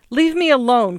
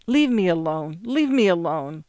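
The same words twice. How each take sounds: First: Louder, sudden cry of refusal. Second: Repeated dazedly to nobody; dazed repetition. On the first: Joe crying out at Gert on the phone before hanging up. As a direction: cry out to end it. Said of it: "cried Joe suddenly". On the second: Joe alone after hanging up, repeating dazedly. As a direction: say it on, long after the line is dead. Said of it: "long after the connection had been broken". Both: A narrator's reading.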